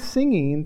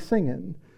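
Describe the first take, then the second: First: The final g sound is clearly pronounced. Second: The final g sound is dropped.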